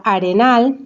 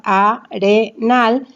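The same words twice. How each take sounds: First: Said in the usual way. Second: "arenal" slowly as a, re, nal; split into syllables. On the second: Shown as a demonstration. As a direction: break "arenal" into three separate syllables: a-re-nal. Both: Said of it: "está separada en sílabas".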